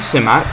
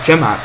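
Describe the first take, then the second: First: The word begins with an S sound. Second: The word begins with a J sound. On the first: This is how the game renders the name. The speaker calls it wrong. "they say Simat in this game" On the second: This is how the name is really pronounced. The speaker calls it right. "C is pronounced like J"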